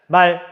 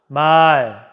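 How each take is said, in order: First: The vowel is kept short. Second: The vowel is held long. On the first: It means a horse. "말 하고 짧게 발음해서 구별한다고 합니다" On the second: It means speech. "사람이 입으로 하는 말은 길게 발음합니다"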